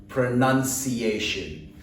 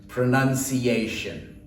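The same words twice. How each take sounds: No difference in how they are said.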